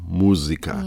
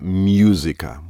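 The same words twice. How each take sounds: First: The first syllable is a plain 'mu' sound. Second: The first syllable sounds like English 'music'. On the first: The speaker calls it right. "It's mu" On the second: The speaker calls it wrong. "Not música"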